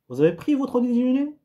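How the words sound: The pitch rises at the end. It asks a question. "une ascension, une montée"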